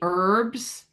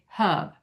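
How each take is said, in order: First: The h is silent and the r is pronounced. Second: The h is sounded and there is no r. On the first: "We make a silent H. We say herbs" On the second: "the H is sounded in uh, the British accent"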